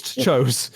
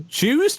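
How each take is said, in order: First: "Chose." said flatly as the correct form; settling on "Chose." in a plain voice; plain correction. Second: "Choose?" asked with a sharp high rise; querying "Choose?" as the wrong form; doubtful wrong word. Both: Shown as a demonstration.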